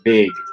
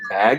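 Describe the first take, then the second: First: The vowel is raised toward a higher front vowel. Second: The vowel is a low open front vowel. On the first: "would say big" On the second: "instead of saying bag"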